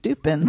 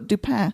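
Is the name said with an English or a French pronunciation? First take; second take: English; French. First: The name is said with an English-style pronunciation. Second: The name is said with a French pronunciation.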